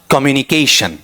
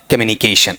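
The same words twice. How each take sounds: First: कम्युनिकेशन with a full "kom" at the start; regular noun pronunciation. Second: कम्युनिकेशन low, with a reduced "kuh" at the start; better pronunciation. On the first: Teacher quoting someone who regularises it, noun pronunciation. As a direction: keep the o clear in कम्युनिकेशन. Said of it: "इसे noun के तौर पर ही बोलना". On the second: Teacher showing the nicer way to say it, better pronunciation. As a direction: weaken the first vowel of कम्युनिकेशन to a schwa. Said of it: "अगर थोड़ा सा अच्छा बोल के चले". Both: Shown as a demonstration.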